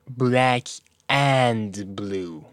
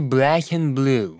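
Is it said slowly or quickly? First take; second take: slowly; quickly. First: It is said slowly, each word separate. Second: It is said quickly, words run together.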